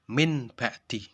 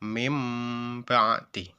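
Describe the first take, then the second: First: The sound before the b is an n. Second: The sound before the b is an m. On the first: The speaker calls it wrong. "Tidak dibaca" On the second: The speaker calls it right.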